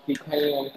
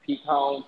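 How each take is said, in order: First: Pecan as pee-KAY-an, drawn-out A; pecan, AN version. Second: Pecan as pee-KAHN, open AH ending; pecan, AH version. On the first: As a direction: end pecan like can, stretched into two sounds. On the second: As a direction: stress the second syllable of pecan, rhyming with dawn. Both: Shown as a demonstration. Comparing two pronunciations of pecan.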